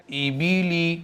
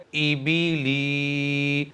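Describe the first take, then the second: First: ای بی لی said short and crisp with no stretched vowel; ای بی لی with short, clean vowels; quick correct reading. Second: ای بی لی with every syllable stretched very slowly; ای بی لی pulled long and slow as a bad example; dragged vowels. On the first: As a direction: read ای بی لی briskly, keeping each vowel short. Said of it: "صحیح طریقہ ہے". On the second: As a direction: drawl out ای بی لی to show the wrong way. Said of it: "اگر میں لام کو کھینچ کر کے پڑھوں اس طرح سے". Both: Shown as a demonstration.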